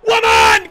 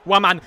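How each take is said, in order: First: High, very loud yell; explosive high-pitched cheer; goal scream. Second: Said in the usual way. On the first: Real, not acted. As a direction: scream the name in triumph.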